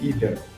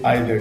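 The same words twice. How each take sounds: First: It uses the pronunciation Americans use. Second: It uses a pronunciation Americans do not use. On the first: "they say either" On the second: "Americans do not say either"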